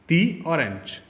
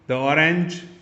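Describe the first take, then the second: First: The word 'the' is said with a long 'thee'. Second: The word 'the' is said with a short 'thuh'. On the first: The speaker calls it right. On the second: The speaker calls it wrong.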